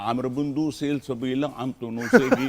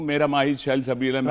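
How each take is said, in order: First: It is said in a put-on Bengali accent. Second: It is said in a plain, non-Bengali accent.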